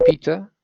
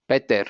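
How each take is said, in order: First: "Peter" in a very English accent; English "Peter" with no R at the end. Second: "Peter" Colombian-style, as "PEH-der"; Colombianized pronunciation. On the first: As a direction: say "Peter" the English way, as "PEE-tuh". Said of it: "in a very English accent". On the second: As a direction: say "Peter" with a Spanish E and sounded final R. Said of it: "you're probably gonna have to Colombianize". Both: Shown as a demonstration.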